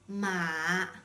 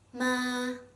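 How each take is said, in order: First: The pitch stays very low. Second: The pitch stays high and level. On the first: It means horse. "with a low tone" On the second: It means mom. "flat and high-pitched tone"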